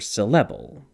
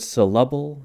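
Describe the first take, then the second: First: The second syllable has an eh vowel. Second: The second syllable has an uh vowel. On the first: "or eh" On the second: "it can sound kind of like an uh"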